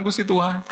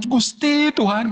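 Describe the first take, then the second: First: Said in the usual way. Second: Louder, slow, anguished plea to God; crying out to God. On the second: Retold or imitated. Weeping believer crying out to God, loud and slow. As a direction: cry the name out like a desperate prayer. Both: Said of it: "air matanya keluar".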